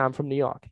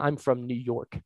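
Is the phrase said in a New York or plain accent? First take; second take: New York; plain. First: It is said with a New York accent. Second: It is said without a New York accent. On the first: "They say, ... It's just kind of part of the accent, part of the inflection" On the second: "people from New York don't say"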